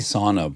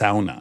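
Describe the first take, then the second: First: The word has the usual American pronunciation. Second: The word has the Finnish-style pronunciation. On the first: "we say sauna" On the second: "he said it's a sauna. We invented it"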